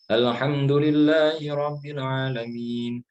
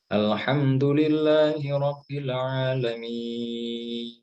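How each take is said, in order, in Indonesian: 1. Vokal akhir pada alamin dibaca sedang. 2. Vokal akhir pada alamin dibaca panjang. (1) "panjangnya itu seperti mad asli, singkat. Tapi nggak pendek" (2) "ini agak panjang"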